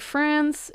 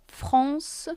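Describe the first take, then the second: First: It is said with an English pronunciation. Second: It is said with a French pronunciation.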